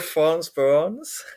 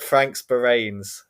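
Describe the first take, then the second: First: The name is pronounced differently from its spelling. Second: The name is pronounced as it is written. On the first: The speaker calls it right. "something like that" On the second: The speaker calls it wrong. "is kind of how it's written, but it's that is not how you say it"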